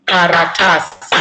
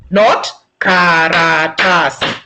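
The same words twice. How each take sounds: First: Karatasi with a long ta, short kara and si; correct pronunciation. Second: Karatasi said slowly with every syllable even; wrong pronunciation. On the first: Teacher models the right way to say karatasi. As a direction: stretch ta in karatasi, keep kara and si quick. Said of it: "we don't say the word karatasi. We say karatasi". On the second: Teacher shows learners how not to say it. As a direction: flatten Karatasi into four equal beats. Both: Shown as a demonstration.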